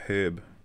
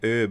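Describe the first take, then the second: First: The word starts with an H sound. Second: The word starts without an H sound. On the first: "and not herb?" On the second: "How come you always say herb"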